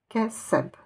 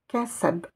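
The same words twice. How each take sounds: First: The word ends on a bare consonant. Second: The word ends on a bare consonant.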